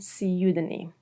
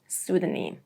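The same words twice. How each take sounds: First: It is said with a British accent. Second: It is said with a non-British accent.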